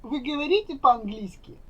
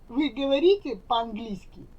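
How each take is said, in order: Both takes have the same delivery.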